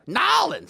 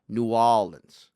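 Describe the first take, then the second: First: The name is squeezed into a short two-syllable form. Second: The full name is said with a sunken 'new'. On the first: This is an outsider's invented pronunciation. The speaker calls it wrong. "that's no one says that shit" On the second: This is how locals really say it. The speaker calls it right. "the way a true New Orleanian would say it would be New Orleans"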